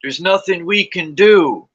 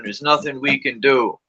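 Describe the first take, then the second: First: Higher, louder, slow mock-defeatist "There's nothing we can do"; hammed-up hopeless "There's nothing we can do"; mocking resignation. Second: Said in the usual way. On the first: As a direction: parody the helpless talkers, dragging "There's nothing we can do". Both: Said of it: "they'll be like".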